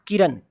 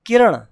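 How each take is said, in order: First: किरण said the casual way, plain final n; everyday wrong reading. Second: किरण with a strong retroflex ण and released final vowel; correct retroflex ending. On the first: Teacher quoting the common mistake, plain n. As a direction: say किरण as people simply say it. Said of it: "Not किरण". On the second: Teacher correcting the common reading, full retroflex NA. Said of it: "it's a". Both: Shown as a demonstration.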